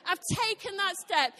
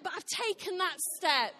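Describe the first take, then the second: First: Louder, leaning on "that step"; emphatic repeat. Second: Said in the usual way. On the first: Real, not acted. Preacher to congregation, repeating "I've taken that step" louder. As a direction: punch "I've taken that step" home harder.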